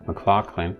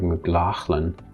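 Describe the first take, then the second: First: The middle consonant is a hard K sound. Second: The middle consonant is a throaty rasping sound. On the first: "the G H could be K" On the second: "more Scottish and more faithful to the original"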